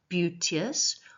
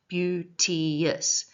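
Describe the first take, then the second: First: The word is said with two syllables. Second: The word is said with three syllables. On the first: "can be said as two syllables" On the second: "or three syllables"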